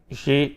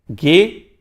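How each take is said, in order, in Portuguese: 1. A consoante é um som suave de zh. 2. A consoante é um som duro de g. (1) "não vai pronunciar como G, G" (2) "sim G, G"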